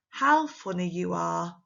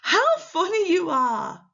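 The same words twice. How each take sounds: First: Said in the usual way. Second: High, loud, delighted exclamation. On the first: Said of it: "But with the exclamation mark". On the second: Shown as a demonstration. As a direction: exclaim it with big amused surprise. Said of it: "with the exclamation mark".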